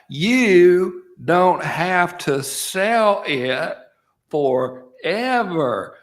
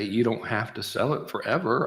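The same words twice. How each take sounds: First: It is said slowly and loudly. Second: It is said at a normal pace and volume.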